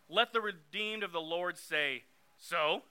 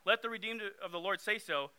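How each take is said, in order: First: The final 'so' is said dismissively, like 'so what'. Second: The final 'so' is said plainly, as usual. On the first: The redeemed should shrug off their troubles. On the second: The redeemed should declare it aloud.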